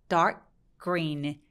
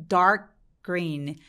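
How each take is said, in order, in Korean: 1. 두 단어를 이어서 말하고, k가 green으로 자연스럽게 넘어가요. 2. 두 단어를 이어서 말하고, k가 green으로 자연스럽게 넘어가요.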